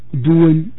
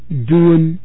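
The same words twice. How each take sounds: The two takes are said the same way.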